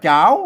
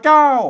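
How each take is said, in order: First: The syllable is said with a rising tone. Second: The syllable is said with a falling tone. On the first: "เสียงจัตวา" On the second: "เสียงโท"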